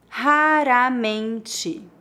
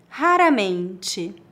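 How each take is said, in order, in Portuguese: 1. É dita devagar e com cuidado. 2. É dita em ritmo natural. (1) "Uma vez mais devagar" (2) "2 vezes mais naturalmente"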